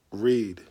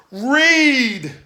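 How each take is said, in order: First: Said in the usual way. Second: "Read!" shouted high and loud as the punchline; "Read!" called out high and loud. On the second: Shown as a demonstration. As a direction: belt out "Read!" as the big reveal. Third repeat, punchline.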